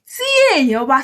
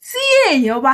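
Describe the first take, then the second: First: The words are said fully, vowels kept separate. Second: The words are said fully, vowels kept separate.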